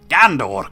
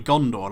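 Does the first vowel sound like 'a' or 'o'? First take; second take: a; o. First: The first vowel sounds like 'a'. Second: The first vowel sounds like 'o'.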